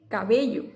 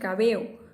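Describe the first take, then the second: First: The 'll' sound is clearly pronounced. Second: The 'll' sound is dropped between vowels.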